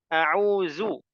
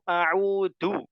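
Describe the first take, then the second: First: The middle consonant is a z sound. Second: The middle consonant is a plain d sound. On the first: "jadi zai" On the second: "Jadi zalnya jadi dal"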